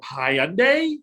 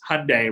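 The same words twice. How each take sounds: First: The name does not rhyme with Sunday. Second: The name rhymes with Sunday. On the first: The speaker calls it wrong. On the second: The speaker calls it right. "it's Hyundai. Ryan's with Sunday"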